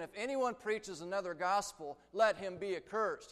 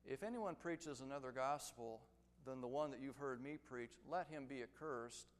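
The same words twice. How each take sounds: First: Repeated a little louder, "anyone" and "let" pressed; stress by repetition. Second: Said in the usual way. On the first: Shown as a demonstration. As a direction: say it again with weight on "anyone". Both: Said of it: "Let me say it again".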